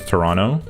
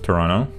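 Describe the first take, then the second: First: The second T is left out. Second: The same.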